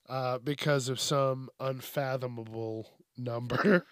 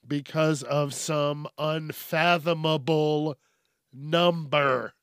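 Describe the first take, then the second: First: Said in the usual way. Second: Slow, careful "Because of some unfathomable number."; deliberate slow second attempt at "unfathomable"; careful retry. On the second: Shown as a demonstration. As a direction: pronounce "unfathomable" carefully, syllable by syllable. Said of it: "I wasn't gonna stop till I got it".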